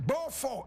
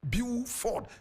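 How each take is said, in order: First: The name is said with a French pronunciation. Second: The name is said with an English pronunciation. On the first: "French pronunciation" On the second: "English pronunciation"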